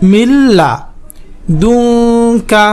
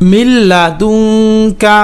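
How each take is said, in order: First: "মিন লাদুনকা" split by a pause after লা; broken-up pronunciation demo. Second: "মিন লাদুনকা" chanted in one flow; chanted, intone "মিন লাদুনকা" without a break; connected chanted demo. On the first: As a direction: chant "মিন লা", pause, then long "দুনকা". ("মিন লাদুনকা" ভেঙে ভেঙে উচ্চারণ) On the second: (chanted, "মিন লাদুনকা" একটানা সুর করে) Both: Shown as a demonstration. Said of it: "উচ্চারণ করে পড়বেন".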